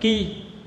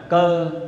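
First: The syllable ends in a high front 'i' vowel. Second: The syllable ends in a mid 'ơ' vowel. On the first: This is one of the character's two readings. "một âm đọc là ki" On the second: This is the reading people customarily use. "nhưng quen đọc là cơ"

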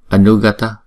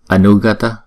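Both takes have the same delivery.

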